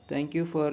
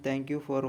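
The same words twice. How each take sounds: The two takes are said the same way.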